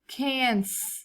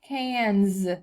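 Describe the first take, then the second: First: The final sound is a hissing s. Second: The final sound is a buzzing z. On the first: The speaker calls it wrong. "what if we did a normal S sound and said cans?" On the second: The speaker calls it right. "So let's do the Z sound"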